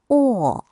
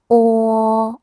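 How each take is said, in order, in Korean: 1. 이 음절은 네 번째 성조로 발음합니다. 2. 이 음절은 첫 번째 성조로 발음합니다.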